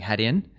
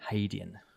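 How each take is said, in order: First: The first syllable sounds like 'had'. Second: The first syllable sounds like 'hay'. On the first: The speaker calls it wrong. "were saying Haitian, and then so there was some correction" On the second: The speaker calls it right. "get it right"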